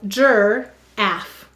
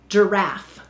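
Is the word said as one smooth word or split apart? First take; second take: split; smooth. First: It is said as two separated, spelled-out syllables. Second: It is said as one smooth everyday word. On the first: This is a pronunciation that helps with spelling. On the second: This is the normal way to say the word.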